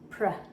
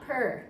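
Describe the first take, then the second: First: The p and r blend with no vowel. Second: An extra vowel sound separates p and r. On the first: The speaker calls it right. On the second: The speaker calls it wrong.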